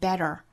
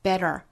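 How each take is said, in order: First: American accent, with the t flapped. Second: American accent, with the t flapped.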